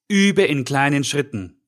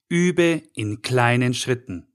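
First: Said in the usual way. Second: "kleinen" leaned on, said slowly; slow down and weigh the word "kleinen"; stress on klein. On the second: Shown as a demonstration. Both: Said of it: "Und die Betonung liegt hier auf klein".

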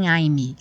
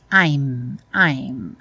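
First: "I'm" with an added vowel at the end, wrong; "I'm" ending on an extra ee sound. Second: "I'm" ending sharply as the lips close on m; "I'm" cut off dry at the m; clipped I'm. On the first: Teacher shows the wrong way: "I'm" with a trailing vowel. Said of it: "não tem I'm". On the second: Teacher shows the right way: "I'm" closed dry on the m. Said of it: "I'm sequinho". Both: Shown as a demonstration.

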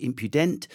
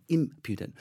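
First: Impudent stressed on the final syllable, rising; questioning mispronunciation. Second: IM-pudent, first syllable accented, falling at the end; stress on first syllable. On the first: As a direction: ask it as im-pyoo-DENT, unsure. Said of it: "how to pronounce it". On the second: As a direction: hit the opening I of impudent. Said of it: "there's an accent on the I". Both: Shown as a demonstration.

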